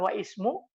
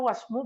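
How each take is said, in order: First: The initial i of ismu is clearly sounded. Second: The words run together without the initial i. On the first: The speaker calls it wrong. "bukan wa ismu" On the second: The speaker calls it right. "Karena dia hamzatul wasal"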